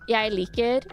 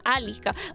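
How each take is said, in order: First: It is said in standard Norwegian. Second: It is said in a Northern Norwegian dialect. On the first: "I wouldn't even say" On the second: "for me, I would say um"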